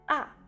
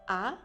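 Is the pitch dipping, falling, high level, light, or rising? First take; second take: falling; rising. First: The pitch falls quickly from high to low. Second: The pitch rises from middle to high. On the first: It sounds like someone slipping by accident. "A au quatrième ton, le son descend rapidement" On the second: It sounds like someone is surprised. "A au deuxième ton, on montre le son. Il semble dire je suis étonné"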